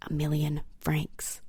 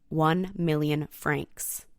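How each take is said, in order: First: Million francs breathed in a whisper; awed whisper. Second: Said in the usual way. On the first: Real, not acted. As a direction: whisper the sum like a secret. Whispered awe at the sum.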